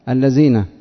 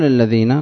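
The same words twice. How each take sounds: First: The middle consonant is a z sound. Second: The middle consonant is a dh sound. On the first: The speaker calls it wrong. "إلا الذال يأتي الذين" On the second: The speaker calls it right. "قلت له قل الذين"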